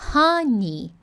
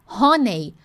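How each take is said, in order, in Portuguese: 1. A segunda sílaba soa como 'nee'. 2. A segunda sílaba soa como 'nay'. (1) "é honey" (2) "cuidado que não é honey ... não é Ney Neymar"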